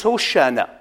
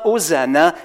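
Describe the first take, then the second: First: "Hoshana" with sh instead of s, ho-SHA-na; Hebrew pronunciation. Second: "Hosanna" with a plain s sound, ho-SAN-na; wrong pronunciation. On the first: Preacher teaching the Hebrew form, sh sound. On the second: Preacher giving the common form, with an s sound. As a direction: say "Hosanna" the English way with s. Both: Shown as a demonstration. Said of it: "so the real way to say it".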